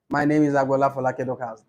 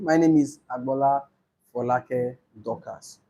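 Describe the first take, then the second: First: It is said quickly. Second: It is said slowly.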